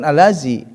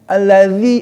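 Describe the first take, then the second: First: The middle consonant is a plain z sound. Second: The middle consonant is a th-like sound. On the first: The speaker calls it wrong. "bukan alazi" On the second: The speaker calls it right. "itu harus digigit lidahnya"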